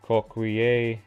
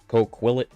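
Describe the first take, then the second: First: It is said in a non-American way. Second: It is said in an American way.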